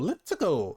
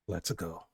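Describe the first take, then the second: First: It is a loud, exaggerated Mario voice. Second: It is quiet, sighed under the breath.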